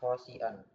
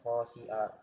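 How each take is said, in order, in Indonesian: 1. Kata ini diakhiri dengan bunyi n. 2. Kata ini diakhiri dengan vokal biasa. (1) "Jadi bacanya bukan khosian" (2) "akan tapi khosia"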